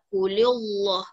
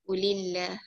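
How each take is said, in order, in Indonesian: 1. Huruf l dalam lillah terdengar tebal dan berat. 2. Huruf l dalam lillah terdengar tipis dan ringan. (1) "tak boleh cakap kulillah. Ah, salah" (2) "inilah dia tipis"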